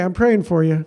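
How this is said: It is said quickly and offhandedly, as a brush-off. The prayer is a throwaway line before moving on. The speaker calls it wrong. "It's not, okay, I'm praying for you, and on to the next thing"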